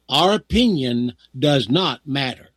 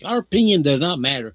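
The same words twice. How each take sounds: First: The sentence is spoken very slowly. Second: The sentence is spoken at a normal pace.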